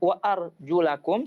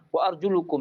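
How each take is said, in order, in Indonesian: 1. Vokal sebelum -kum adalah a. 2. Vokal sebelum -kum adalah u. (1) "boleh dibaca wa arjulakum seperti ini" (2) "qiraah yang syadz, dhammah"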